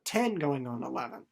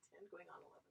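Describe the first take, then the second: First: Said in the usual way. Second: Hushed pointed aside; whispered aside. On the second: Acted. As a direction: whisper it, voiceless. Emphatic age aside.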